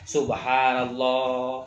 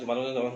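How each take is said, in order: First: The phrase is said slowly and carefully. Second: The phrase is said quickly and rushed. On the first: The recitation is measured and keeps the meaning intact. The speaker calls it right. "Nu penting tar tartil" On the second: The recitation is rushed and spoils the words. The speaker calls it wrong. "begitu. Enggak sesuai"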